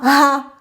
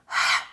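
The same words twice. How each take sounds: First: "ha" wrongly voiced, vocal cords buzzing; mispronounced ha. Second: "ha" as pure pushed air, soft, no vocal cord vibration; just breathe out the "ha" without voice; voiceless ha. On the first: Teacher shows learners the mistake, voiced ha. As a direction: say "ha" with voice in it, not just air. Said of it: "Not ha". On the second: Teacher models the correct letter sound, voiceless airy ha. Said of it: "Vocal cords are not vibrating". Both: Shown as a demonstration.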